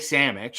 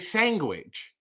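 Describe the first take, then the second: First: The middle keeps its usual n-d sound. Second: The middle n-d becomes a g sound. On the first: It is the everyday way. "she didn't want to say sandwich" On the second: It tries to sound proper. "put the N and the D into a G"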